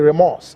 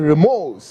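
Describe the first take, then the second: First: The word is said with a Ghanaian pronunciation. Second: The word is said with a Nigerian pronunciation. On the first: "the Ghanaian will say remorse" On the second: "but you are saying remorse"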